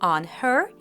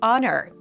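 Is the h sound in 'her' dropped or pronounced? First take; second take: pronounced; dropped. First: The h sound in her is clearly pronounced. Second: The h sound is dropped, linking the words. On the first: "On her becomes" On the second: "the first consonant is often dropped"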